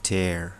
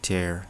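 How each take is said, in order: First: The vowel sounds like 'air'. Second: The same.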